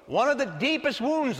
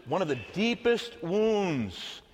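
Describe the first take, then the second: First: DEEPEST WOUNDS repeated higher for attention; insistent repeat. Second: Said in the usual way. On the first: Real, not acted. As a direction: hit "one of the deepest wounds" again, pitched up to make them listen. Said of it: "I said, so pay attention".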